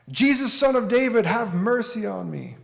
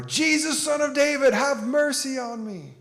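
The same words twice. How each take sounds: First: Pleading yell, higher and louder. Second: Desperate yell, much higher and louder, slower at the end. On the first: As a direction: cry out for mercy from the roadside. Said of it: "the man yells out". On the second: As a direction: shout it harder so he can't be ignored. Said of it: "yell louder". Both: Retold or imitated.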